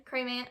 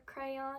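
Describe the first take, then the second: First: "crayman" in one syllable, rhyming with man; "crayman" squeezed into one syllable; one-syllable crayon. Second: "crayon" as CRAY-on, two full syllables; "crayon" said CRAY-on, not rhyming with man. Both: Shown as a demonstration. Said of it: "With one syllable rhymes with man".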